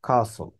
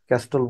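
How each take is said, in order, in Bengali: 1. মাঝখানে কোনো 't' ধ্বনি শোনা যায় না। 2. মাঝখানে একটা 't' ধ্বনি শোনা যায়।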